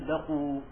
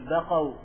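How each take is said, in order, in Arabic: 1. تنتهي الكلمة بحرف العلة الطويل 'oo'. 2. تنتهي الكلمة بالمركب الصوتي 'ow'. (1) "ولكن قل بقوا" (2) "لا تقل بقوا"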